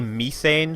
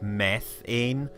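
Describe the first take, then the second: First: It is said in a non-American pronunciation. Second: It is said in an American pronunciation. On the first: This is how the speaker normally says it. The speaker calls it right. "because I say methane" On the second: This is the form used in the game. The speaker calls it wrong. "That's a strange American pronunciation that doesn't make any sense"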